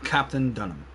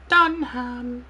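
First: Said in the usual way. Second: High squeaky chipmunk voice; helium voice. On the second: Real, not acted. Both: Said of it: "sounding like a chipmunk".

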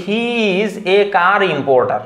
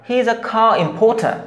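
First: Slow "car importer" with hard plain k, p, t and both r's; stretched "he is a car importer", every r sounded; unaspirated local pronunciation. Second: Higher "car importer" as khaa im-pho-tha; linked "he is a car importer", puffed consonants, r's dropped; natural correct pronunciation. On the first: Teacher showing the awkward version, "car importer" unaspirated with full r. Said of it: "এটা কেমন লাগে?". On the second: Teacher showing the natural version, "car importer" aspirated without r. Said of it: "এটা বললে কতটা natural শোনায়?". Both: Shown as a demonstration.

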